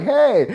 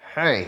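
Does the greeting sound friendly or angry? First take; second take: friendly; angry. First: It is said in a friendly, warm way. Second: It is said in an angry, aggressive way.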